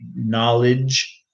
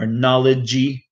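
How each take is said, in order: First: The word ends on the consonant, no vowel. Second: The word ends with an extra vowel sound. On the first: The speaker calls it right. "when it should just be knowledge" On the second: The speaker calls it wrong. "a lot of them put an extra syllable"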